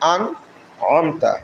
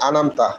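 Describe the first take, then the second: First: A firm throaty catch separates the middle syllables. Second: The syllables blend smoothly with no throaty catch. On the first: The speaker calls it right. "আমরা এই আনকে সঠিকভাবে উচ্চারণ করব; আইনকে শক্ত করে পড়তে হয়" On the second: The speaker calls it wrong. "অনেকে আনামতা পড়ে, এটা আলিফের মতো হয়ে যায়"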